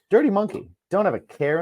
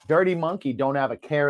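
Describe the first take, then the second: First: There is a pause after 'Monkey'. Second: There is no pause after 'Monkey'. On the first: The speaker calls it wrong. "I didn't mean to pause there" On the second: The speaker calls it right. "There's no comma"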